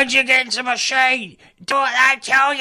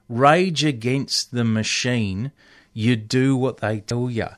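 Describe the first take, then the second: First: It is said imitating the heckler's voice. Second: It is said in the speaker's own voice.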